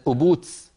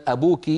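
First: "أبوتس" ending in ts; Najdi kaskasa. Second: Said in the usual way. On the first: Shown as a demonstration. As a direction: feminine k said as ts in "أبوتس". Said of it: "يقول هكذا بالسين". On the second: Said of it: "يعني بدل".

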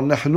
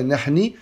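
First: "nahnu" ending on a clear u vowel; correct nahnu. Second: "nahni" ending on an i vowel, shown as a mistake; wrong ending nahni. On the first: Teacher showing students the right form, final u in "nahnu". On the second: Teacher showing students the wrong form, final i in "nahni". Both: Shown as a demonstration. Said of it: "on dira jamais nahni".

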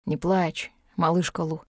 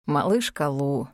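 First: Mildly hushed, gentle soothing; tender murmur. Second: Low, drawn-out wistful breath; sad sigh. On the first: Dragon soothes crying heroine, gently hushed. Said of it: "нежно шепнул Арьек". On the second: Dragon breathes heroine's nickname, low and sad. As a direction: sigh it slowly and sadly. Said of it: "почему-то грустно выдохнул Арьек". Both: A narrator's reading.

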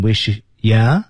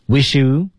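First: "wish ya" with "you" weakened to "ya"; slow "wish ya", run together; reduced form. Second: "Wish you" with a clear "you"; higher, careful "Wish you"; full form. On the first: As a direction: turn "you" into a short "ya". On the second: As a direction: say "you" fully after "Wish". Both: Shown as a demonstration. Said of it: "读成wish ya".

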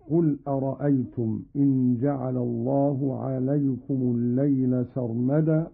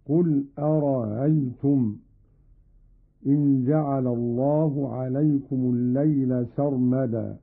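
First: Said in the usual way. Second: أرأيتم with its second hamza eased, no full stop; softened second hamza. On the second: Shown as a demonstration. Teacher demonstrates Qalun's reading, أرأيتم with softened hamza. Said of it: "بتسهيل الهمزة الثانية".

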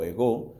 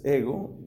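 First: Ego said as egó, stress on the last syllable. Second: Said in the usual way. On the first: Shown as a demonstration. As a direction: land the accent on the final O of ego. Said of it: "Tiene el acento en la O". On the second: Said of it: "¿cómo se dice yo en griego?".

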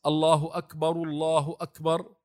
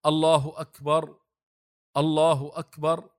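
First: الله أكبر، الله أكبر linked, the first أكبر flowing straight into الله; joined takbirs. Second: الله أكبر، الله أكبر said as two units with a stop after أكبر; preacher demonstrating each أكبر ended with a sukun, cut off; separate takbirs. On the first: Teacher shows students the takbirs joined, with wasl. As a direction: let the first أكبر run on into the next الله with no stop. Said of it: "هكذا مع الوصل". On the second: Teacher shows students the takbirs said apart, paused. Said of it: "هل يقول". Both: Shown as a demonstration.

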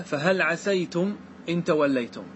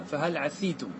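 First: Slow recited فهل عسيتم with a fatha on the s; Quran recitation. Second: فهل عسيتم with a kasra, "ʕasitum", softer; Nafi's reading. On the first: Teacher reciting the majority reading to the class. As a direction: intone the verse slowly. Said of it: "قال تعالى". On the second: Teacher voicing Nafi's kasra reading for students. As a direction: recite فهل عسيتم with i on the s, quietly. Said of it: "فيقرأها". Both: Shown as a demonstration.

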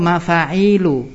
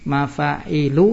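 First: MAFA'ILU slowly, with the i after the ain held long; slow model of MAFA'ILU with a long ee before lu. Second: MAFA'ILU slowly, i kept short after the ain; slow model of MAFA'ILU with no long ee. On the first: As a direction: stretch the ee in MAFA'ILU, then drop to the final u. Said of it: "mim fa alif ain ya lam". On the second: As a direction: sound out MAFA'ILU syllable by syllable, short i, rising end. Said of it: "mim fa alif ain lam ya". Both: Shown as a demonstration.

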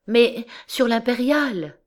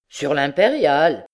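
First: Higher, anxious wife's voice; anxious answer. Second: Mocking disbelief in a conductor's voice; incredulous echo. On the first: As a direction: answer anxiously, stretching the last word. Wife answers the conductor, distressed. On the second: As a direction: echo it back, doubting. Conductor echoes her in disbelief. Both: A narrator's reading.

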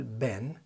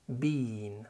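First: "بان" as a short "ben", American style; American short vowel. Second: "بين" with a long British ee, as in "bean"; drawn-out vowel. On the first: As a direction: say "بان" with a quick eh. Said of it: "زي امريكا بالظبط". (بان زي الأمريكان) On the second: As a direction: stretch the ee in "بين". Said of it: "ممدودة كده". (بين ممدودة كده) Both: Shown as a demonstration.

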